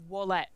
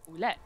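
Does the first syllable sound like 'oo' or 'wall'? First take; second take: wall; oo. First: The first syllable sounds like 'wall'. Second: The first syllable sounds like 'oo'. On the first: The speaker calls it wrong. "most people here say Wallet" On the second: The speaker calls it right. "I'm fucking saying it right"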